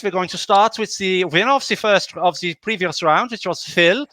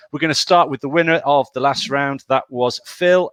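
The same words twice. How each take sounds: First: Put-on light German accent on the line-up; mock German accent. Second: Said in the usual way. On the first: Host announcing the first player, in a mock German accent. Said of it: "the slightly racist accent". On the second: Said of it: "that's where the accent will end".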